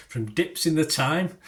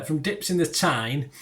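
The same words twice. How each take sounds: First: "thyme" said like the herb, to rhyme with time; misread place name. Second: "Tyne" said like the river, ending in n; corrected place name. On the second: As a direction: fix it: "Tyne", the river, with a clear n at the end. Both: Real, not acted. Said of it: "thyme, not thyme".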